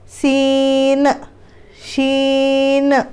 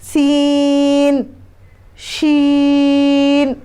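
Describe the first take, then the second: First: The final n sound rings on with an echo. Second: The final n sound is held and cut off. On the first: The speaker calls it wrong. "अभी मैं गलत पढ़ के बताऊंगी।" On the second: The speaker calls it right. "आखिर में है ना नून की आवाज़ को लॉक कर दें।"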